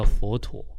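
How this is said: It is said with a Mandarin pronunciation.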